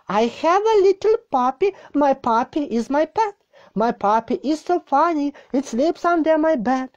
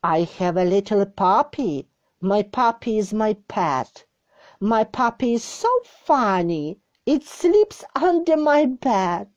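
First: Put-on higher children's read. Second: Said in the usual way. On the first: Shown as a demonstration. Second reading, higher and sing-song.

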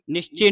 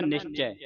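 First: ਨਿਸ਼ਚੈ said as "nishche", closed final e; closed vowel mistake. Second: ਨਿਸ਼ਚੈ ending in a wide "chai" vowel; open ai ending. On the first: Teacher shows students the mistake, ਨਿਸ਼ਚੈ with closed e. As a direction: narrow the last vowel of ਨਿਸ਼ਚੈ. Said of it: "ਨਹੀਂ ਉਚਾਰਨ ਕਰਨਾ". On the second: Teacher corrects the reading, open ai in ਨਿਸ਼ਚੈ. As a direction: open the mouth on the end of ਨਿਸ਼ਚੈ. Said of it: "ਇਹਨੂੰ ਪੜ੍ਹਨਾ ਹੈ ਨਿਸ਼ਚੈ". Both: Shown as a demonstration.

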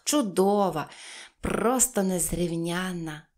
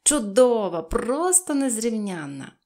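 First: Slow, drawn-out agreement; savoured, less forceful praise; agreeing. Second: Loud, mannered gushing; affected delight, loud opening then drawn out; affected exclamation. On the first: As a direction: agree at leisure, stretching the praise. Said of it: "погодилася Пепі". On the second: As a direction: exclaim it grandly, like a fine lady. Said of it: "манірно вигукувала". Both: A narrator's reading.

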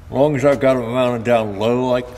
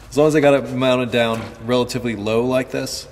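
First: Talking around a marker held in mouth; words muffled by a pen in the teeth; mouth full. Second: Said in the usual way. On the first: Real, not acted. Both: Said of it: "sorry, I had a marker in my mouth".

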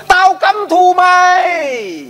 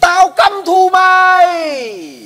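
First: Far-off, high, slow echoing yell; as if the mountains call it back; echo shouting back. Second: Slow, high, drawn-out furious yell; angry shout at mountains. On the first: (tiếng vọng từ núi hét lại) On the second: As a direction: hurl the hate at the mountains, long and high. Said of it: "nó kêu lên". (hét thật to, kéo dài giận dữ) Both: Retold or imitated.

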